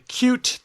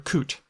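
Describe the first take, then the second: First: It has a 'y' sound before the vowel. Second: It has no 'y' sound before the vowel.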